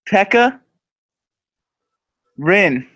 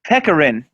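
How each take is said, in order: First: A short pause splits the two names. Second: The name is run together as one word. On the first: "Fill a little pause in between" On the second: "No, it's two names"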